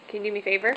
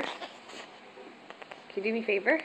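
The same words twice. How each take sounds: First: Said in the usual way. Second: Slow soft whisper. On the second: Shown as a demonstration. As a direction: breathe it out slowly. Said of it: "Hey, can you do me a favor?".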